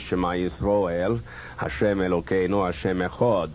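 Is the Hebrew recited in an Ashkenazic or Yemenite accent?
Ashkenazic. It is recited in a softer Ashkenazic Hebrew accent.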